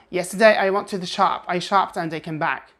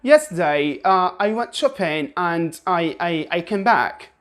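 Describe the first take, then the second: First: Brisk American delivery without the lilt; plain American melody; American intonation. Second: Sing-song British intonation; British tune, stretching "Yesterday"; British melody. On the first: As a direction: say it the American way, quickly and evenly. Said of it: "say it the American way". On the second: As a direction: lilt it like a British speaker. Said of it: "British people would say". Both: Shown as a demonstration.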